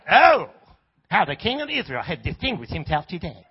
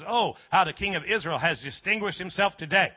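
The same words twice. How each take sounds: First: It is said in a mocking, sarcastic tone. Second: It is said in a plain, sincere tone.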